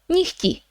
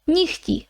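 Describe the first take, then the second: First: The middle h sound is weakened. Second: The same.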